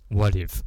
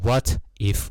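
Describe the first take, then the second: First: The words are linked with a d-like t. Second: The two words are said separately. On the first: The speaker calls it right. "中间那个t 呢连在一起，所以它有点像是d 的感觉" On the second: The speaker calls it wrong. "不要念成what if，不要分开"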